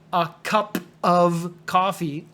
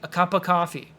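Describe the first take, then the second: First: The word "of" is said fully and separately. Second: The word "of" is reduced to "uh" and linked. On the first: The speaker calls it wrong. "don't say a cup of coffee. It sounds like I'm choking" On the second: The speaker calls it right. "Say a cup of coffee"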